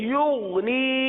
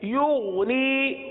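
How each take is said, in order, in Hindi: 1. बीच का अक्षर नरम ग़ैन है। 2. बीच का अक्षर नरम ग़ैन है।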